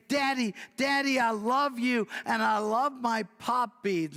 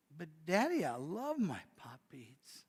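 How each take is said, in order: First: Higher, louder, bursting with joy; a delighted four-year-old calling to her daddy; little girl greets her daddy with happy squeals; excited little girl. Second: Mild pleading. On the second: Girl pleads to keep beads. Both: Acted.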